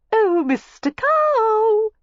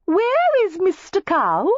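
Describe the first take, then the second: First: Very high, very slow drawn-out call; coy calling out. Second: Very high, slow sing-song call; coy calling out. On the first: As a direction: sing out to him teasingly. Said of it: "Miss Layton called". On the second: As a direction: tease him by calling out sweetly. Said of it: "heard Cassandra Layton's voice". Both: A narrator's reading.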